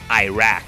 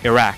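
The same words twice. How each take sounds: First: It is said with an American pronunciation. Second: It is said without an American pronunciation.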